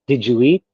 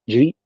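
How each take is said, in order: First: Each word is said separately and fully. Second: The words are blended into one quick chunk. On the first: "We don't say word for word" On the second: "do a connection like"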